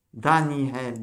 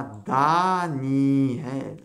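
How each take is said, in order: First: Said in the usual way. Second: "Daniel" very slowly, as Da-ni-el with long vowels; drawn-out "Daniel", each syllable held; syllable-by-syllable reading. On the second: Shown as a demonstration. Teacher sounds out a Hebrew word.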